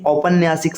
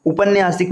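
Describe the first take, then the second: First: औपन्यासिक opening on "au"; correct first vowel. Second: उपन्यासिक opening on short "u"; wrong first vowel. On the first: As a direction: say औपन्यासिक as "aupanyaasik". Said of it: "सही होता है". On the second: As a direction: say उपन्यासिक as "upanyaasik". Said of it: "नहीं". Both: Shown as a demonstration.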